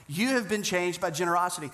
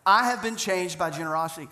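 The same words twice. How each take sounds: First: "have" stressed in "You have been changed by generosity", turning it to the listeners. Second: "I" hit hard at the start of "I have been changed by generosity"; stress on I. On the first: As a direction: press on "have" to drive it home. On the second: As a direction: lean into "I", a personal testimony. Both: Real, not acted. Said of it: "I'm telling you".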